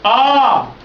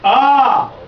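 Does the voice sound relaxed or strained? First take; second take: relaxed; relaxed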